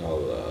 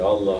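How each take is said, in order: First: It is said quietly with little breath. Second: It is said loudly with full breath. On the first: The remembrance is weak and unmoved. The speaker calls it wrong. "quietly like that" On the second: The remembrance comes from the heart. The speaker calls it right. "with your full breath"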